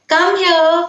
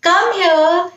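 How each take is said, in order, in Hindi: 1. यह प्यार और स्नेह से कहा गया है। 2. यह प्यार और स्नेह से कहा गया है।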